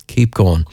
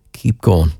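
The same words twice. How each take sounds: The two takes are said the same way.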